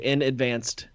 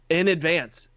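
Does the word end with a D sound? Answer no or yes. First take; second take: yes; no. First: The word ends with an added D sound. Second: The word ends without any D sound. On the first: The speaker calls it wrong. "People say in advanced" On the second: The speaker calls it right. "That's it. No D"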